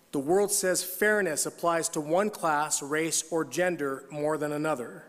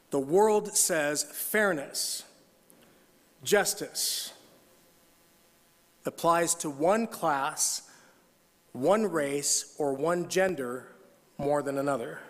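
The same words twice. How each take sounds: First: Said in the usual way. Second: Slow, deliberate reading, each phrase set apart; read carefully. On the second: Shown as a demonstration. Pastor rereads the line slowly so the church hears it. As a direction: weigh every word slowly. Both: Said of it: "Let me read this one carefully".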